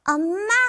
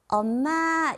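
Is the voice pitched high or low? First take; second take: high; low. First: It is said with a high, rising child's voice. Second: It is said with a lower, adult voice.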